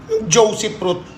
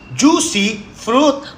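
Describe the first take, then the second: First: The word 'fruit' starts with a P sound. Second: The word 'fruit' starts with an F sound. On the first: The speaker calls it wrong. "hindi mo kayang bigkasin ng tama" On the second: The speaker calls it right. "with the F, fruit"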